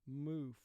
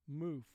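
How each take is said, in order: No difference in how they are said.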